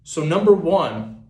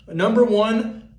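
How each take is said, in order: First: Said in the usual way. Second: Slow, high, rising Number one; Number one pitched up and drawn out; emphatic restart. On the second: Acted. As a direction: announce Number one like a big reveal.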